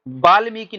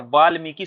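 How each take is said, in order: First: वाल्मीकि with a "b" at the start, "baalmiki"; regional mispronunciation. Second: वाल्मीकि with a "v" at the start; correct pronunciation. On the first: Teacher quotes Bundelkhand speakers' error, mispronounced. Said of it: "वा को बा बोलते हैं". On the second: Teacher gives students the standard form, correctly pronounced. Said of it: "होता क्या है". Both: Shown as a demonstration.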